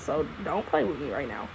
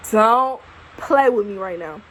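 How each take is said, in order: First: Low, softer aside; quiet mock threat under the breath; muttered warning. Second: Louder, slow, each word of "Don't play with me right now" spelled out; emphatic slow repeat of the warning; firm warning. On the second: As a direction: lay down the law, slowly. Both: Real, not acted.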